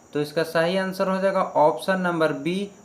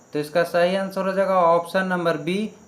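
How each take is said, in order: Both takes have the same delivery.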